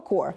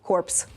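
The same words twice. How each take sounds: First: The word ends without a 'ps' sound. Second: The word ends with a 'ps' sound. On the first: The speaker calls it right. "правильну вимову цього слова Corps" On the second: The speaker calls it wrong. "якщо ти скажеш так, як ти сказав"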